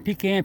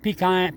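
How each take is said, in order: First: "pecan" said pee-CAN, rhyming with can. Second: "Pecan" said pee-KAHN. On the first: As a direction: give "pecan" a short flat A. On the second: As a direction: give "Pecan" a broad ah at the end. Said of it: "pecan, pecans". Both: Shown as a demonstration.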